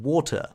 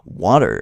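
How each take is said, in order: First: It is said in the speaker's own non-American accent. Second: It is said imitating an American accent.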